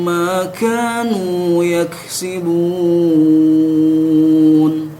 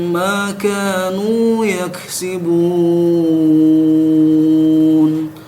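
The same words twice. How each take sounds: The two takes are said the same way.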